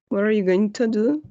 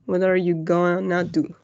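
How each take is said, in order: First: Both words are said fully and separately. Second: The two words blend into one reduced word. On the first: "they don't say going to" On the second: "se va a reducir al uh, what are you gonna do?"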